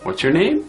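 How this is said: The voice rises at the end. The speaker calls it wrong. "If we go with an uptone"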